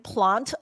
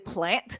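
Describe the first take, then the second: First: It is said in a British accent. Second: It is said in an American accent. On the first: "instead of saying plant" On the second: "I would say plant"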